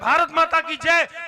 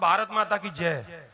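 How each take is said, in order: First: It is said loudest of all. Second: It is said at normal volume.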